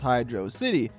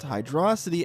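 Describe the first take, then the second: First: It sounds like two words, hydro and city. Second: It sounds like one word rhyming with velocity. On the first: The stage is an underwater city. "because the stage is this underwater ruined city" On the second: It is a pun on running fast underwater. "as a pun on the word velocity"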